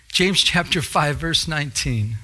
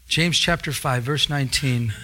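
No difference in how they are said.

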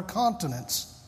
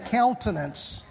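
First: "continence", first syllable as "con"; retold slip, "continence" with a "con" opening; slip of the tongue. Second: "countenance", first syllable as "count", not "con"; corrected "countenance" after the slip; intended word. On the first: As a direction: say "continence" where countenance was meant. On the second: Shown as a demonstration. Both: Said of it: "I meant to say countenance".

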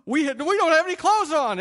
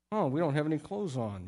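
First: Much higher and louder, hammed-up alarm at "clothes"; mock dim-witted shock. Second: Said in the usual way. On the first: Naked couple discovering their nakedness, hammed-up shocked cry. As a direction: play a clueless couple suddenly realising they're naked. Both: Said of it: "this couple was somehow a dim bulb".

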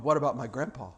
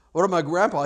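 First: Low, soft question; subdued objection. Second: Fuller-voiced repeat of the question; pressing objection. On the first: Retold or imitated. Somebody questioning the promised miracle, subdued. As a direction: ask it quietly, pitched down. Imagined objector, first asking. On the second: Somebody questioning the promised miracle, insistent.

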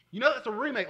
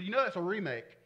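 First: Loud, high mock outburst; loud insistent retort. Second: Said in the usual way. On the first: Someone correcting the preacher about his favourite song, loud and insistent. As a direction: throw it back loudly, as an imitated know-it-all. Repeats critic's remark, much louder.

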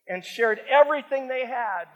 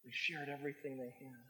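First: Ringing out everything forcefully; loud emphatic reading. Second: Hushed repeat. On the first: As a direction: proclaim the verse at full voice. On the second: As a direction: let the words sink in softly. Soft repeat of the verse. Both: Acted.

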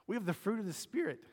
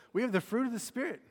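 First: Voice jumps up. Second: Pitched well up, pushed louder; high and louder. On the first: Pastor to congregation, voice accidentally jumping higher. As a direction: pitch suddenly shoots higher mid-sermon. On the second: Pastor repeating the line after his voice jumped, higher and louder. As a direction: say it again, even higher and stronger. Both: Real, not acted. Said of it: "Ooh, my voice just went way up".

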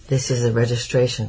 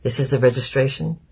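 First: A falling, settled statement on "This is the registration"; "This is the registration" stated flatly with the tune falling at the end; explaining statement. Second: "This is the registration?" asked with the tune rising at the end; a questioning rise on "This is the registration?"; asking question. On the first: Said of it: "Papa explained finally". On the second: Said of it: "Papa stepped over to the man". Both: A narrator's reading.

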